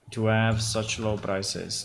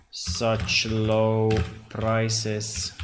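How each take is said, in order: First: Said in the usual way. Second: Very slow, words drawn out; slow dictation. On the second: Real, not acted. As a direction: drag it out while typing. Slow while typing.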